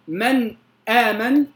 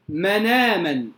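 First: A glottal stop separates the two words. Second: The n runs straight into the vowel. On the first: "بدلا من أن يقول من آمن" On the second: "ينقل حركة الهمز إلى الساكن قبله ثم يحذف الهمز"

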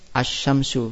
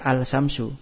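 First: The L sound is merged into the next consonant. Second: The L sound is pronounced clearly. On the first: The speaker calls it right. "kalau tadi asy-syamsu dibaca apa?" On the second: The speaker calls it wrong. "Enggak boleh dibaca al-syamsu"

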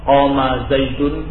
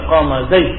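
First: The last word ends with a full -un ending. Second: The last word ends clipped, without a vowel. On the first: "Seperti yang saya contohkan tadi" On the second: "kemudian dibaca qama zaid ... disukunkan"

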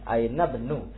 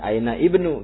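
First: The 'i' is dropped, linking straight to 'b'. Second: The 'i' sound of ibnu is pronounced separately. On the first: "langsung di huruf ba ininya bacanya" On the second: "Yang dibaca aina ibnu gitu ya"

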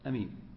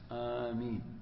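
First: The first vowel is short, with a single m. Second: The first vowel is long, with a single m. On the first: "ويجوز القصر، يعني تقول أمين أمين بدون إيش مد الهمزة" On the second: "بفتح الهمزة مع المد في الأشهر"

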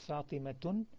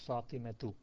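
First: The name ends with an added n sound. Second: The name ends on a plain vowel. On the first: The speaker calls it wrong. "It's not Fatimatun" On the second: The speaker calls it right. "it's Fatimatu"

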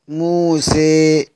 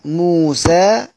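First: The final vowel leans strongly toward 'ee'. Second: The final vowel is a fully open 'a'. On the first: "إمالة" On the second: "فتح"

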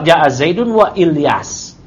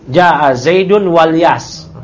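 First: The name's first vowel is kept after wa. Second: The name's first vowel drops and links to wa. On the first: "Kalau hamzah qata" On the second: "hamzah wasal Ilyas berarti nanti kalau dia di tengah-tengah, ya, walyas"

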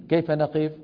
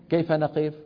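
The two takes are said the same way.

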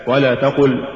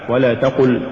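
The two takes are said the same way.

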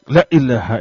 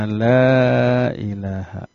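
First: The first vowel is held short. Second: The first vowel is held long. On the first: There surely is a god. The speaker calls it wrong. "Kalau dibaca pendek" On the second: There is no god. The speaker calls it right. "La-nya dibaca panjang di sana"

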